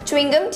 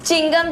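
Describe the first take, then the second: First: The first part is said as 'chew-ing'. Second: The first part is shortened to 'chin'. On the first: The speaker calls it right. "ठीक है" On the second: The speaker calls it wrong. "गलत लफ्ज है"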